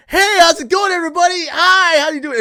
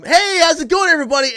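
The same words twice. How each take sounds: First: Very high, loud sing-song hello; loud cheery greeting. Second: High, loud bright hello; loud cheery greeting. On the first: Greeting coworkers loudly at the morning shift, high and loud. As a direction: belt out an over-the-top morning greeting. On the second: Greeting everybody at the start of the shift, high and loud. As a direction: call out a big greeting to the room. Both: Retold or imitated. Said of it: "I was like".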